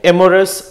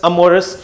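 First: एमोरस with an open "e" at the start; amorous pronounced "emorous"; variant pronunciation. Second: अमोरस with a short neutral "uh" at the start; amorous pronounced "uh-morous"; standard pronunciation. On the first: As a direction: say it as एमोरस, E-morous. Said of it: "अमोरस इसका pronunciation है". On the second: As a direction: say it as अमोरस, uh-MOR-us. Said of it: "इसका pronunciation है". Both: Shown as a demonstration.

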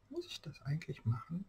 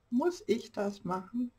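First: Said in the usual way. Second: "Muss ich" raised and stressed; emphatic self-questioning. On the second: Real, not acted. Crafter questions herself over fiddly work, "Muss ich" emphatic. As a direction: ask it higher, leaning on "Muss ich".

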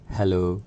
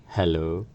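Both takes have the same delivery.

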